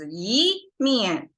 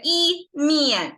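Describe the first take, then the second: First: The syllable 'yi' rises in pitch. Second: The syllable 'yi' stays level and high. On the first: The speaker calls it right. "it's easier that way" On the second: The speaker calls it wrong. "you can still say it, but it's not as easy"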